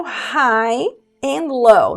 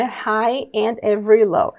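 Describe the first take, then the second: First: Lyric read slowly for students; slow demo. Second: Said in the usual way. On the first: Shown as a demonstration. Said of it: "slow demo of lyric". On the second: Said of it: "lyric read at normal pace".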